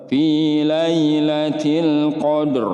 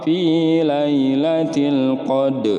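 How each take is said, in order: First: The final r is pronounced, thick and full. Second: The final r is dropped after the d. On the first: The speaker calls it right. "ro-nya ro tafkhim dibaca tebal" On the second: The speaker calls it wrong. "Enggak boleh ... ini salah, fatal"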